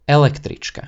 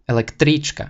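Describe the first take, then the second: First: The stress is on the first syllable. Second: The stress is on the third syllable. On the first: The speaker calls it right. "It sounds much more natural" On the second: The speaker calls it wrong. "let's try pronouncing it oddly... shifting the accent from ele to tri"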